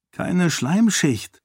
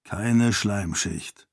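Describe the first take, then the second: First: Slow, higher, stress on Keine; noting a fact. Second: Agreeing, deep voice. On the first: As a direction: state Keine slowly and firmly, as an observation. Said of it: "stellte Karata fest". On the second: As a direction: echo Keine Schleimschicht slowly in a low agreeing voice. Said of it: "stimmte Galadon ihr zu". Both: A narrator's reading.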